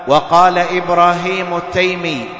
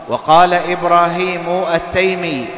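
The two takes are said the same way.

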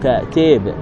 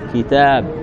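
First: The vowels are inclined toward 'e' and 'i'. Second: The vowels are pronounced as a pure open 'a'.

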